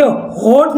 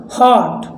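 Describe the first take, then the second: First: हॉट mispronounced as "hoat"; wrong long O. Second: हॉट with an open "aw"; short open O. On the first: Teacher showing what not to read, हॉट with long "oh". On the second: Teacher correcting the reading, हॉट with open "aw". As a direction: say हॉट as "hawt". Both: Shown as a demonstration. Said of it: "अब इसे हॉट नहीं पढ़ना है".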